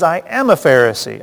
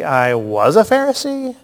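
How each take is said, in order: First: "am" stressed, present tense. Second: "was" stressed, past tense. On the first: Teacher showing Paul says am, stress on am. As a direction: lean on "am" as the right reading. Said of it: "He says". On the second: Teacher asking if Paul says was, stress on was. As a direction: lean on "was" as the wrong reading. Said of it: "does he say". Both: Shown as a demonstration.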